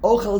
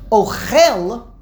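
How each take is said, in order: First: The stress is on the first syllable. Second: The stress is on the last syllable. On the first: It is the noun meaning food. "Ochel is mila'el. That means food" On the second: It is the verb meaning to eat. "Ochel means to eat"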